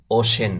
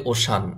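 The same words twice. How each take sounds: First: ওশেন said with an "e" in the second syllable, o-shen; the right ওশেন, clear "she" not "shaa"; correct pronunciation. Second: ওশান said with a broad open "a" in the second syllable, o-shaan; the common mistaken ওশান, second vowel like "aa"; wrong pronunciation. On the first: Teacher to students, giving the correct form: ওশেন with "e". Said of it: "এটার সঠিক উচ্চারণ হবে". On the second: Teacher to students, showing the common mistake: ওশান with a long "aa". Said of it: "ওশান বলা যাবে না". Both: Shown as a demonstration.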